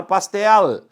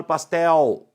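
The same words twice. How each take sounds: First: "pastel" with a true L, tongue stopping on the ridge; "pastel" ending in L, never a U glide; consonantal final L. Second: "pastel" ending in a U glide, like "pastéu"; Brazilian-style "pastel", tongue free at the end; final L as U. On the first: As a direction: finish "pastel" on a held, audible L. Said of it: "nós deveríamos falar pastel". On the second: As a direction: say "pastel" with the L turned into a W sound. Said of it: "não deveríamos falar pastel". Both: Shown as a demonstration.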